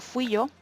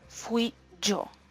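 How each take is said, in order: First: The y in yo is soft and relaxed. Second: The y in yo is strong and forceful. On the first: The speaker is simply answering a question. "no lo estoy enfatizando, por lo tanto lo pronuncio de manera suave" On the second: The speaker is insisting it was them. "Digo ese yo con esa fuerza porque estoy remarcando"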